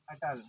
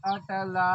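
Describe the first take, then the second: First: Said in the usual way. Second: अटला called with the final ला lengthened, a little louder; prolonged call. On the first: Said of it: "क्या था?". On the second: Shown as a demonstration. Teacher demonstrates the drawn-out pluta vowel by calling a name. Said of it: "अगर हम उसको आवाज़ करके मतलब पुकारते हैं तो".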